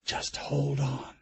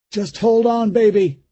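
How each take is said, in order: First: Slow, much softer hold on; whispered comfort to his frightened daughter; soft repeat. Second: Louder, higher urgent comfort; father calling over the shrieks to his daughter; straining reassurance. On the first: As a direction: murmur it to keep her calm. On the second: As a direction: hold her steady through the strain. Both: A narrator's reading. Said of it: "he said to her".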